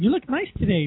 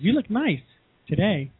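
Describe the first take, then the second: First: It is said smoothly without any pause. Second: There is a pause before the final word.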